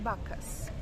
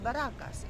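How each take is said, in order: First: The name is said with two syllables. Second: The name is said with three syllables. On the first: The speaker calls it right. "It's Bacchus" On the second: The speaker calls it wrong. "He said Barakas"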